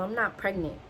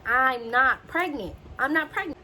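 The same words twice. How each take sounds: First: Said in the usual way. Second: Mock inner scream. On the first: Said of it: "In my head, I'm screaming". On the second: Patient screaming in her head at nurse, mock exasperation. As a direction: retell screaming it in your head, without full volume. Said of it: "I'm screaming".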